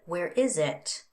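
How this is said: The voice falls at the end. It asks for information. "a W H or information question uses a fall pattern"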